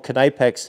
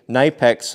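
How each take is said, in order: First: The initial K is pronounced. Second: The initial K is silent. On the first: "no, it's the K is silent" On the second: "When I was saying Kneipex"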